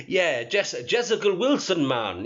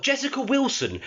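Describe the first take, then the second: First: Lightly attempted, bad Jamaican accent; mock the name with a hint of fake Jamaican; terrible Jamaican accent. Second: Said in the usual way. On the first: Shown as a demonstration. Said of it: "that's a terrible Jamaican accent".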